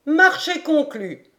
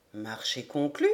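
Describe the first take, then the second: First: Higher, bright-voiced eager acceptance; eager Paganel. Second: Lower, softer, settled voice of the major; calm major. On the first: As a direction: accept the bet with relish. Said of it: "À l'instant, Major". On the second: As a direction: seal the deal quietly. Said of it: "demanda McNabbs". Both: A narrator's reading.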